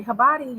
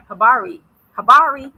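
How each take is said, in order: First: "Habari" with a quick tapped r, almost a d; local Swahili pronunciation. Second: Loud, heavily American pronunciation; American accent. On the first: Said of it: "they'll say". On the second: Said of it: "with an American accent". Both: Shown as a demonstration.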